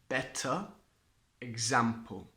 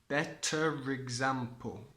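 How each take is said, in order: First: Said as separate words, with no linking R. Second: Said joined, with an R linking the words.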